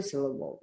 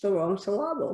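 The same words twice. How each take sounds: First: Said in the usual way. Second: Syllable said as suh-LAH-bul, middle beat stressed; syllable deliberately accented in the wrong place, on LAH; misplaced stress. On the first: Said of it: "We have to come back to syllable". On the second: Shown as a demonstration. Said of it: "it's just the wrong syllable".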